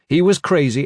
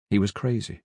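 First: CRAZY lifted high and strong; exultant push on "crazy"; emphatic. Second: Hushed, matter-of-fact statement; understated. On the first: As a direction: hit "crazy" harder, with raised pitch. Same words repeated with more force. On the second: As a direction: say it quietly, dropping the level. Same words, first quieter take. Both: A narrator's reading.

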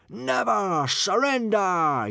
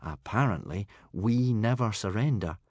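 First: Drawn-out, high, loud battle cry; happy yell. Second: Understated, resigned delivery at normal pitch; gloomy. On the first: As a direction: yell it like a cheering horde. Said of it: "yelled the happy hooligans". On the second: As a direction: repeat the motto with a touch of gloom. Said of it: "said Hiccup gloomily". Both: A narrator's reading.

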